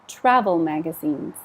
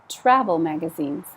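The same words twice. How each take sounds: The two takes are said the same way.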